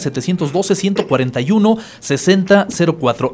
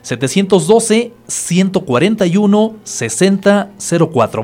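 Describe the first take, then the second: First: The number is said at normal speed. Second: The number is said a little more slowly.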